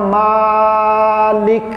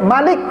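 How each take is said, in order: First: The first vowel is held long. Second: The first vowel is kept short. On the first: It means the owner. "Kalau Bapak panjang bacanya Malik" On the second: It means the king. "kalau Pak baca pendek"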